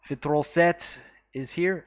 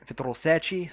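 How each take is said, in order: First: Said in the usual way. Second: "Sete" as SEH-chee, Brazilian style; Brazilian pronunciation. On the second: Shown as a demonstration. Streamer corrects a viewer's name, "Sete" as SEH-chee. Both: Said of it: "sorry, with the Brazilian accent".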